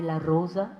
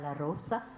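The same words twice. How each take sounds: First: It is said with the old Sephardic pronunciation. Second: It is said with the modern Spanish pronunciation. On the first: "ne vous étonnez pas si vous entendez la rosa" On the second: This is how it sounds in today's Spanish. "et pas la rosa"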